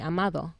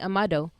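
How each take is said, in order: First: The name is said with a Spanish D sound. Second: The name is said with an English D sound. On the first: "in Spanish he'll say" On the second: "how to say his name in English"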